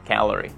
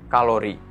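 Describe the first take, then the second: First: It is pronounced the English way. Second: It is pronounced like the Indonesian word kalori. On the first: The speaker calls it right. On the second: The speaker calls it wrong.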